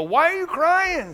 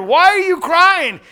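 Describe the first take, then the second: First: Raised, questioning angel voice; angels asking gently. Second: Much louder, higher, thundering question; loud preached quote. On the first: Angels ask weeping Mary her trouble, raised query. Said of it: "They go". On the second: Preacher retells Jesus asking Mary, full-force preaching. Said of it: "she thinks he's a gardener". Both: Retold or imitated.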